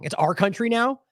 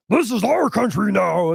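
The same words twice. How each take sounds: First: Said in the usual way. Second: Slow, mocking imitation of a put-on villain voice; imitating the odd voice. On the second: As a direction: drag it out like a cartoon grouch. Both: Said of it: "that's what he's talking like".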